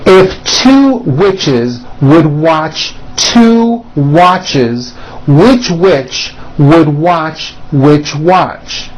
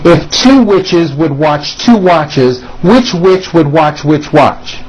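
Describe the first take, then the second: First: It is said at a slower, careful pace. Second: It is said at a quicker, brisker pace.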